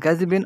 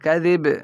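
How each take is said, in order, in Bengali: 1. শব্দটি একটি নাসিক্য '-in' ধ্বনি দিয়ে শেষ হয়। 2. শব্দটি একটি খালি 'b' ধ্বনি দিয়ে শেষ হয়।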